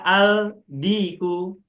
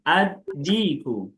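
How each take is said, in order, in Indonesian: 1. Huruf L dibunyikan dengan jelas sebelum D. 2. Huruf L menyatu menjadi bunyi D yang ganda. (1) "tidak dibaca al-diku" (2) "lamnya tidak nampak"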